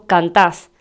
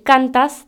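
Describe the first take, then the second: First: Cantás stressed on the last syllable, canTÁS; voseo cantás. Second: Cantas stressed on the first syllable, CANtas; tú form cantas. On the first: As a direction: land the stress on TÁS in cantás. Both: Shown as a demonstration. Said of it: "En vez de decir cantas, decimos cantás".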